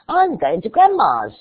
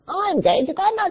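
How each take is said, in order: First: It is said in a put-on young girl's voice. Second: It is said in a put-on bird voice. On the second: "And then a bird"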